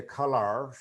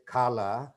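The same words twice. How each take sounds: First: COLORS with the r sounded in the last syllable; r-coloured American "colors"; American pronunciation. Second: COLOR ending in an open "ah", no r; r-less British "color"; British pronunciation. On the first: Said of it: "but American people". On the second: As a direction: say color the British way, dropping the final r. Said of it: "British people say color". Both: Shown as a demonstration.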